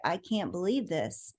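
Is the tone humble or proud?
humble. It is said in a modest, humble tone. "in a humble way"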